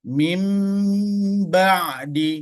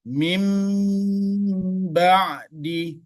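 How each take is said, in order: First: A nasal m sound comes before the b. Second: The same.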